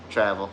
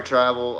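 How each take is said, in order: First: "Travel" said with a short a, as in "cat"; "Travel" said plainly, "Trav-el", short a; corrected name. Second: "Travel" said as "Trivel", rhyming with drive; "Travel" with a long i sound, "Try-vel"; misread name. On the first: Host corrects himself and says "Travel" with a short a. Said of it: "I get it, I get it". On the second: Host misreads a chat name as "Try-vel". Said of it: "Okay, tra-, Travel. I get it". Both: Real, not acted.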